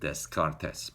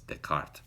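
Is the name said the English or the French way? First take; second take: English; French. First: The name is given an English-style pronunciation. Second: The name is given a French-style pronunciation. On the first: The speaker calls it wrong. "I pronounced it Descartes, but I didn't know. I don't speak any French" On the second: The speaker calls it right. "I found out later that it's Descartes"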